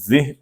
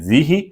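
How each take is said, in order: First: The word ends in a bare h sound. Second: The h is followed by a short i.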